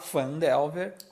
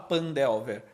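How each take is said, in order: First: The name begins with an F sound. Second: The name begins with a P sound. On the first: The speaker calls it right. "você vai falar Fandelver com F em português" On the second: The speaker calls it wrong. "Você não vai falar Pandelver"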